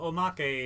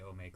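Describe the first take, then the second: First: The word is pronounced the Japanese way. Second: The word is pronounced the American way. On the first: "in Japanese" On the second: "A lot of Americans say omake though"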